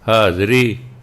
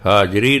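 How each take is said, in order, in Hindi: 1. बीच का व्यंजन z ध्वनि है। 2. बीच का व्यंजन सामान्य j ध्वनि है। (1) "ਜੇ ਪੈਰ ਬਿੰਦੀ" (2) "ਨਹੀਂ"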